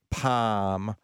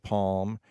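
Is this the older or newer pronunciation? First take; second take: older; newer. First: It is said the older, once-standard way. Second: It is said the newer, common way. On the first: "they were taught to say palm instead of" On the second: "instead of palm"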